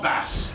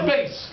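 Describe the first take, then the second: First: The word rhymes with mass. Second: The word rhymes with face. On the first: It names a fish. The speaker calls it wrong. "not bass. If you pronounce it bass, a bass is a fish" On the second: It names the lowest male singing voice. The speaker calls it right. "The bass. Ojo"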